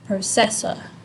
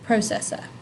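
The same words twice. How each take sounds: First: The stress falls on a later syllable. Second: The stress falls on the first syllable. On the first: The speaker calls it wrong. "It's not processor, right? The emphasis is not here" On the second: The speaker calls it right. "it's at the front"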